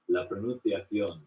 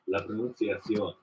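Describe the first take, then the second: First: The c is said with a lisp. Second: The c is said as a plain s.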